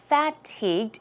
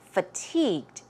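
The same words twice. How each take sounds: First: The first syllable has a full vowel. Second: The first syllable has a reduced vowel. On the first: The speaker calls it wrong. "It's not fatigued" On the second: The speaker calls it right. "it's F U H, F"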